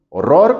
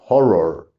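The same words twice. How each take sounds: First: The word carries Spanish-style stress. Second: The word carries English-style stress. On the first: The speaker calls it wrong. "horror como en español, pues no" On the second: The speaker calls it right. "En inglés la fuerte es la de atrás y es horror"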